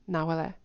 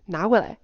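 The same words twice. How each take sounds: First: "拿回来" softened, tones smoothed out; level, de-stressed "拿回来"; unstressed word. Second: "拿回来" punched louder with full tones; firm, emphasized "拿回来"; stressed word. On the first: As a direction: let "拿回来" go by without emphasis. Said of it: "No, I'm not stressing the word". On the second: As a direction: stress "拿回来", a clear pitch swing. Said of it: "I'm still stressing the word". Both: Shown as a demonstration.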